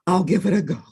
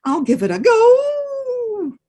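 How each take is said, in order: First: Lightly voiced grudging bear; mild bear voice; a hint of a bear. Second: High, slow odd wolf voice; slow grudging wolf; reluctant wolf. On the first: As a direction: agree gruffly. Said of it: "Bear said". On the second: Acted. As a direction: agree slowly, grudgingly. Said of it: "Wolf said".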